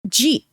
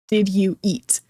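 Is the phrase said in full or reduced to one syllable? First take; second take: reduced; full. First: The words are run together into one syllable. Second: Each of the three words is said separately. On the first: "to sound more like a native English speaker" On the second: "it means did you eat?"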